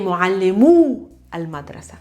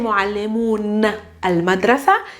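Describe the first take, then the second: First: The first word ends without an n sound. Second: The first word ends with an n sound. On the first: The speaker calls it right. "you say" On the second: The speaker calls it wrong. "you don't say"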